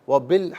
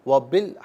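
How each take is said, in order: The two takes are said the same way.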